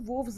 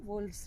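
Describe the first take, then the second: First: The L sound is silent. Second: The L sound is pronounced. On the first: The speaker calls it wrong. "इसमें एल को silent नहीं करेंगे, वोव्स नहीं होगा" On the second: The speaker calls it right. "वोल्व्स रहेगा"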